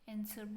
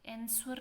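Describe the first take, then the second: First: The W sound is silent. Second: The W sound is pronounced. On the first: The speaker calls it right. "एंसर बोलते हैं" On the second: The speaker calls it wrong. "एंसवर नहीं बोलते"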